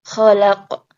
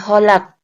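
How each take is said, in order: First: It begins with a raspy kh and an a vowel. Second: It begins with a plain h and an o vowel. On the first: The speaker calls it right. "kha seperti bunyi orang ngorok" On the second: The speaker calls it wrong. "bukan kholak, bukan ho"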